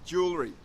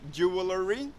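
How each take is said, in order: First: Some letters of the word are not sounded. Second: Every letter of the word is sounded. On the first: The speaker calls it right. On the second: The speaker calls it wrong.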